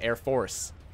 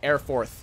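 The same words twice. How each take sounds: First: The s-sound is said as a clear s. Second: The s-sound is lisped, like a th. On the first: "instead of Air Force" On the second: "he has a lisp. So he said Air Force"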